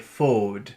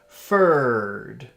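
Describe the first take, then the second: First: The word is said with little air pushed out. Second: The word is said with lots of air pushed out. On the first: The speaker calls it wrong. "A little child would say fode, because they give the kiss, but they're pushing down instead of pushing out the air" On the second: The speaker calls it right. "You really feel all this air pushing up. If you're saying it the right way"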